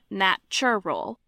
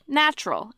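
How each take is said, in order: First: All three syllables are fully pronounced. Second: The middle vowel is dropped, giving two syllables.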